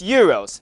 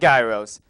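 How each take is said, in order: First: The word starts without a G sound. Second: The word starts with a hard G sound. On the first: The speaker calls it right. "Don't be fooled by that silent G. It's Euros" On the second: The speaker calls it wrong. "not Gyros"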